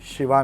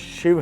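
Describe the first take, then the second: First: The word ends with an added a vowel. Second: The word ends on the v consonant. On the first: The speaker calls it wrong. "शिवा नहीं है" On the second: The speaker calls it right. "शिव हैं"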